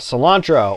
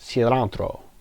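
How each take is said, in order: First: It is said with an ordinary English accent. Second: It is said with a Spanish-style accent.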